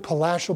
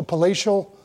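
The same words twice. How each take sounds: First: Palatial with a short a, as in cat, said quietly; Palatial, stressed on la with a short flat a; trying the word. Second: Palatial with a long a, as in day; palatial, stressed on la with a long ay sound; trying the word. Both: Shown as a demonstration. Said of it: "is that a real word?".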